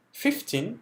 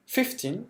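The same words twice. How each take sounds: First: Said in the usual way. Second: Fifteen with the f pushed hard; strong f. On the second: Shown as a demonstration. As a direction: hit the f sounds in fifteen. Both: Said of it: "faut donner du f".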